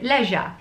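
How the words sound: It is said the British way.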